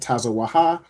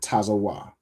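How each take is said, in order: First: The word ends with an extra ha syllable. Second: The word ends on wa with no ha. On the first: The speaker calls it wrong. "instead of saying tazawaha" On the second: The speaker calls it right. "you just drop the a from the second letter"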